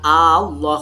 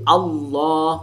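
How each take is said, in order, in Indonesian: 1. Vokal pertama itu dipanjangkan. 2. Vokal pertama itu pendek. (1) "memanjangkan hamzah yang depan Allah, itu salah"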